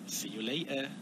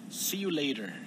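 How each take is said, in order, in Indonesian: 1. Ini diucapkan dengan aksen Inggris. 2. Ini diucapkan dengan aksen Amerika. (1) "But in British accent, we say" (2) "it's more like American accent"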